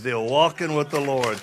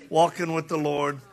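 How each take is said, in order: First: Walking hit louder, falling at the end; walking said loud and firm; stress on walking. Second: Said in the usual way. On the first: Shown as a demonstration. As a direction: lean hard into walking.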